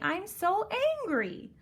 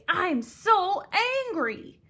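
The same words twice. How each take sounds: First: It is said flatly, without strong feeling. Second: It is said forcefully, with strong anger. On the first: The speaker calls it wrong. "I wouldn't say" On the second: The speaker calls it right. "a really strong feeling and my feeling was that I was angry"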